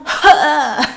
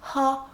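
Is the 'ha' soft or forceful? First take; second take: forceful; soft. First: A strong breath pushed from the throat. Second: A small, light breath of air. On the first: The speaker calls it right. "mais vraiment ha" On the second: The speaker calls it wrong. "pas juste un petit ha"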